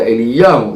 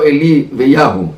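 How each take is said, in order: First: The word is said with a doubled y sound. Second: The word splits into two parts with single y. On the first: The speaker calls it right. "אלא אליהו, זה י' דגושה" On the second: The speaker calls it wrong. "לא אלי ויהו"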